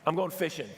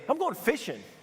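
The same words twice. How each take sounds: First: It sounds tired and resigned, like giving up. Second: It sounds lively and upbeat, not giving up.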